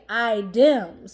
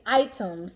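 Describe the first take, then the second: First: The middle consonant is a d. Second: The middle consonant is a clear t. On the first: The speaker calls it wrong. "she would say items ... I D E M S" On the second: The speaker calls it right. "instead of saying items"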